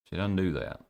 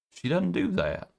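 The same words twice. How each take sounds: First: Said in the usual way. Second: She doesn't do that, pitched up high; emphatic, raised-pitch insistence. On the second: Shown as a demonstration. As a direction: lift it high to stress the point.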